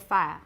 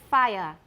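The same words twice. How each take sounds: First: The vowel is smoothed into a two-part glide. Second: The vowel glides through three vowel qualities. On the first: "in colloquial British, you probably say" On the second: "you can say"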